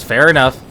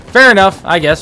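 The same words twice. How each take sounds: First: Said in the usual way. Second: High, loud sarcastic "Fair enough"; "Fair enough" said with a louder, higher sarcastic lift. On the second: Real, not acted. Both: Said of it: "I'm saying that sarcastically".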